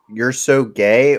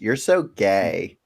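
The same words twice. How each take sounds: First: It is said in his plain voice. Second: It is said in a flamboyant gay voice.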